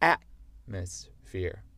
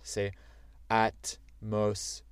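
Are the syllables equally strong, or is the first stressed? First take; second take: first stressed; equal. First: The first syllable is much stronger. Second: All three syllables are equally strong.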